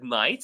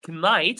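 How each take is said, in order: First: The word starts with an N sound. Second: The word starts with a K sound. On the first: The speaker calls it right. "I said night" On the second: The speaker calls it wrong. "I did not pronounce knight"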